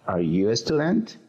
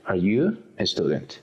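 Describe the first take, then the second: First: The voice rises at the end. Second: The voice stays flat at the end. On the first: The speaker calls it right. "Tiene que ser un tono de pregunta" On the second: The speaker calls it wrong. "No podemos decir"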